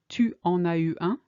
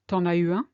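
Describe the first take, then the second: First: The 'u' of 'tu' is clearly pronounced. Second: The 'u' of 'tu' is dropped entirely.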